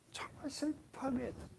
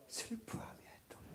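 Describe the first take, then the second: First: Soft, falling 정말 슬퍼하며 애통; hushed mourning. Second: Breathy whisper of 슬퍼하며 애통; whispered grief. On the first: Preacher voicing Abraham mourning Sarah, hushed and falling. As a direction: let the voice sink with sorrow. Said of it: "사라가 죽은 걸 보고요". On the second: Preacher showing Abraham's grief to the church, whispered. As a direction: breathe the words out like mourning. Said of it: "어떻게 해요?". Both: Shown as a demonstration.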